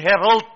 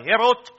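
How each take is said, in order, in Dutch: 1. Het woord wordt op de Engelse manier uitgesproken. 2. Het woord wordt op een niet-Engelse manier uitgesproken. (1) "nie herald nie" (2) "maar herald"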